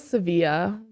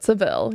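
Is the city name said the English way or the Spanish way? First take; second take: Spanish; English. First: The name is said the Spanish way. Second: The name is said the English way. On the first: This is how people in Spain say it. "Sevilla is how Spaniards would say it" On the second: This is how English speakers say it. "but Seville"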